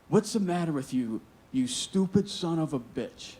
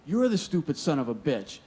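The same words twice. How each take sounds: First: Retold angry swearing. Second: Throwing the insult straight back, a bit higher; angry comeback. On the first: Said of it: "he's swearing at me". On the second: Retold or imitated. Young worker firing the insult back at his foreman, angry. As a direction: hurl it back in his face. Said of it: "now I'm going at him".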